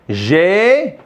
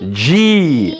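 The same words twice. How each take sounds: First: The letter name is pronounced the French way. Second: The letter name is pronounced the English way. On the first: "en français, on dit G" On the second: "En anglais, on dit, on dit G"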